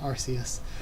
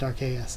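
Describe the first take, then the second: First: The name begins with a soft 'ar-see' sound. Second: The name begins with a hard 'ark' sound. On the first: This is how it has usually been said. The speaker calls it wrong. "and not uh" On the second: The name combines the words 'arc' and 'deus'. The speaker calls it right. "it is pronounced Arceus"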